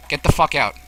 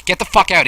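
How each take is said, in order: First: Said in the usual way. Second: Angry shout to get out; shouting match. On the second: Real, not acted. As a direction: yell it at him. Shouting at intruder.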